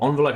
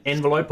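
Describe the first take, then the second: First: "envelope" said with an ON start; first syllable of "envelope" as ON; ON-velope pronunciation. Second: "envelope" said with an EN start; first syllable of "envelope" as EN; EN-velope pronunciation. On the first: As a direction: say "envelope" beginning like "on". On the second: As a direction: say "envelope" beginning like "end". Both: Shown as a demonstration. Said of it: "however you wanna say it".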